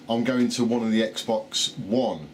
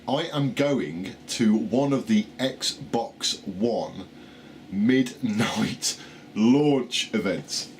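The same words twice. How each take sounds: First: Slurred, struggling over the words; tongue tripping on loose teeth; loose dentures. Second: Very slow, every word placed deliberately; slow it right down and get it out; careful slow retry. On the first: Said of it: "put my teeth back in". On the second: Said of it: "Right, try again". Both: Real, not acted.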